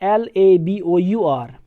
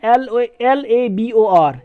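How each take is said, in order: First: "L A B O यू आर" spelled slowly letter by letter, falling on "A"; British spelling "L A B O यू आर" dictated slowly. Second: "L A B O R" spelled slowly letter by letter, falling on "O"; American spelling "L A B O R" dictated slowly. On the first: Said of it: "जब British में यही word लिखा जाता है". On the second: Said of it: "लेकिन American जो है इसमें". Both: Shown as a demonstration.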